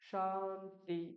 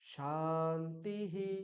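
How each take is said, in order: First: The word is said without raising the pitch. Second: The word is said with the pitch raised up. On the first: The speaker calls it wrong. "শান্তি এরকম বললাম না" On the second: The speaker calls it right. "উপরে উঠিয়ে দিলাম"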